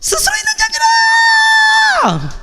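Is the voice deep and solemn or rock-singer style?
rock-singer. A loud, energetic rock-singer voice. "락커처럼"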